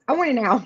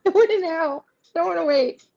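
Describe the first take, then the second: First: A hint of a demanding queen, lightly voiced; impatient Queen of Wands. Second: Higher, laughing mock demand; laughing impatient queen. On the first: Reader voicing the Queen of Wands card, mildly impatient demand. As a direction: play the card as a pushy queen, only half in character. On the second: Reader voicing the Queen of Wands card, laughing mock impatience. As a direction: whine it through a laugh like a spoiled queen. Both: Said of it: "Queen of Wands is like".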